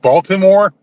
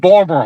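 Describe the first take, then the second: First: Every consonant in the word is clearly pronounced. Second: Some consonants are dropped, in a local accent. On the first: This is how outsiders say the name. "Some people pronounce it Baltimore" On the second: This is how locals say the name. "Locally, we, we say"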